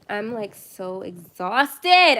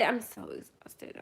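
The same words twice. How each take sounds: First: Loud, very slow, drawn-out groaning yell; exhausted yell. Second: Soft, slow, worn-out sigh of a line; quiet exhausted. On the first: Streamer to late-night viewers, exhausted drawn-out yell. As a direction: stretch it out and yell how tired you are. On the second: Streamer after yelling, softly exhausted repeat. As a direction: drop right down and let the tiredness sag. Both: Real, not acted. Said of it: "I'm sorry for yelling".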